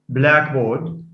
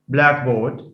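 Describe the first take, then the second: Both takes have the same delivery.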